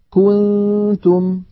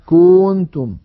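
First: كنتم slow and higher; slow recited example. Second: كنتم a bit louder, damma of ك dragged toward كونتم; overstretched damma. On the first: Teacher reads the example before showing the error. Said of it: "الخطأ أن يمط ضمة الكاف". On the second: Teacher demonstrates the stretched damma mistake. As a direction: hold the damma of كنتم too long. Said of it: "أن يمط ضمة الكاف فيقول". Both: Shown as a demonstration.

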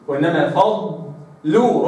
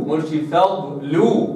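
First: فضلوا slow with the ض held; correct dad. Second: فضلوا with a short ض, lower; wrong dad. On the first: Teacher demonstrating the correct فضلوا, slowly. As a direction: stretch the ض of فضلوا. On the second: Teacher showing the wrong فضلوا, short ض. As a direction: clip the ض in فضلوا. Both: Shown as a demonstration.

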